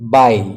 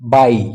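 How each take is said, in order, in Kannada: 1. ಈ ಸ್ವರ 'eye' ರೀತಿ ಕೇಳಿಸುತ್ತದೆ. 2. ಈ ಸ್ವರ 'eye' ರೀತಿ ಕೇಳಿಸುತ್ತದೆ.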